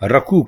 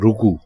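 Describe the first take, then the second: First: The first vowel is 'a'. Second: The first vowel is 'u'. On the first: The speaker calls it wrong. "इसको लोग रकू कहते हैं। रकू रकू गलत है" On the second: The speaker calls it right. "दुरुस्त लफ्ज है रुकू"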